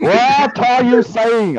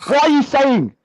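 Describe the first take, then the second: First: Slow, stretched, higher whiny protest; drawn-out mock whine. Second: Much higher, hammed-up indignant squeal; mock outraged whine. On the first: Mocking his friend's claim, he drags out a whiny protest. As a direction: drag every word out like a sulky complainer. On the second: Teased about whining, he shoots back in mock outrage. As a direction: squeal it like a wounded accuser. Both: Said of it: "you're either accusing someone or you're whining".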